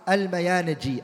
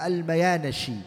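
First: The name is said with a 'j' sound. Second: The name is said with an 'sh' sound. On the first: "You can say it with a jim" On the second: "or the sheen"

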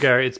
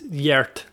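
First: The name begins with a hard G sound. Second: The name begins with a Y sound. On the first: The speaker calls it wrong. "I must correct you" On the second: The speaker calls it right. "it's Yert"

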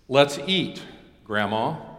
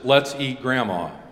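First: There is a pause before Grandma. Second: There is no pause before Grandma.

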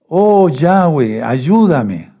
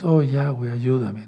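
First: It is shouted loudly. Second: It is said quietly.

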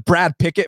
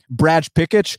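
First: The name is said with an American accent. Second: The name is said with a Brazilian accent.

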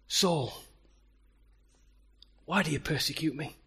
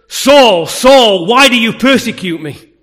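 First: It is said in a mild tone. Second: It is said in an angry tone.

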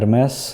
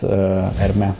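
First: The name ends with a pronounced s sound. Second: The name ends on a vowel, no s. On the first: The speaker calls it wrong. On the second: The speaker calls it right.

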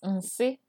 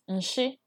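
First: The word is said with an s sound. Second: The word is said with an sh sound. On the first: "Nsi is poop" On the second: "some dialects say nshi"

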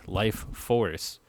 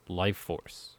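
First: It is said as two separate words. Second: It is said run together as one word. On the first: "I say it like it sounds like two words" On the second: "it's actually one word"

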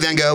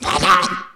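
First: The name is said with English sounds. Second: The name is said with Dutch sounds. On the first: "We say Van Gogh" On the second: "And she went"

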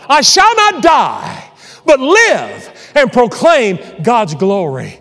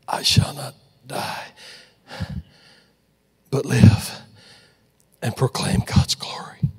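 First: It is said out loud, strongly. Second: It is said weakly and quietly.

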